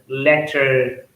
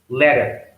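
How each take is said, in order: First: The middle consonant is a clear T sound. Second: The middle consonant is a soft D-like sound. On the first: "instead of saying" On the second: "it becomes letter, better, Twitter. So that T sound is changed into D sound"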